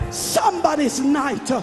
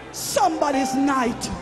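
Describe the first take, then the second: No difference in how they are said.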